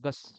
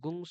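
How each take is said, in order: First: The syllable ends in an 's' sound. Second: The syllable ends in a nasal 'ng' sound. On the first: The speaker calls it right. "অনুসারের পরে স থাকলে গস।" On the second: The speaker calls it wrong. "গুং সোহা এরকম বলি না।"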